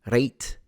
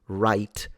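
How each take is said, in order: First: It has an older, Scottish-like vowel. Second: It has the usual modern English vowel. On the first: "they would say right. Exactly like they in some areas of Scotland" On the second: "wouldn't say right"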